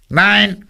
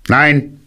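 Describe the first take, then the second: First: Very high squeaky put-on voice; disguised voice. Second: High-pitched little character voice; short high refusal from inside; voice from the hole. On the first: Rabbit hides identity from bear, disguised voice. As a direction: disguise yourself with a tiny high voice. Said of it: "diesmal mit einer anderen Stimme". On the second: Hidden rabbit answers the caller, high voice. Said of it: "sagte eine Stimme". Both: A narrator's reading.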